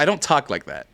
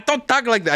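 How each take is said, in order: First: Said in the usual way. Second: Mock cholo voice. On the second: Shown as a demonstration. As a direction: still in the higher cartoon cholo voice, protesting.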